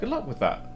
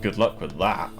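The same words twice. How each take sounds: First: It is said in a warm, sincere tone. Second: It is said in a doubting, sarcastic tone. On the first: The speaker truly wishes success. "It sounds more genuine" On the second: The speaker doubts it will succeed. "I doubt you"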